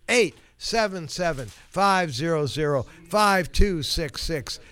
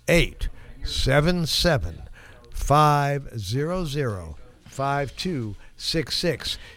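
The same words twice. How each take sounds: First: The number is said at normal speed. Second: The number is said slowly and deliberately.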